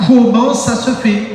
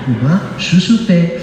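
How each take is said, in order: First: High, slow, exasperated question; frustrated question. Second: Slow, joking Portuguese-accented French. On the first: Acted. Believer asking the Lord why nothing comes, exasperated. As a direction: draw out the question, high and baffled. Acts out complaint to God. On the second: Shown as a demonstration. Preacher jokingly redoing his question, Portuguese accent. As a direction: put on a playful Portuguese accent, drawn out. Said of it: "J'allais le faire avec l'accent portugais".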